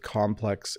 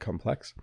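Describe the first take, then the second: First: The stress is on the first syllable. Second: The stress is on the second syllable. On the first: It is used as a noun. "you stress the first syllable when it's a noun" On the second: It is used as an adjective. "the second one when it's an adjective"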